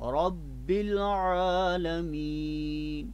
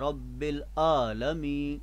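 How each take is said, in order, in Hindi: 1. यह सहजता से और समान रूप से बोला जाता है। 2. यह झटके के साथ बोला जाता है। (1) "आवाज़ को सीधा रखें" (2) "झटके से पढ़ा जाता है रब्बिल आलमीन, ये गलत है"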